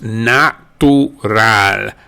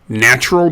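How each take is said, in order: First: It is said with Spanish sounds. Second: It is said with English sounds.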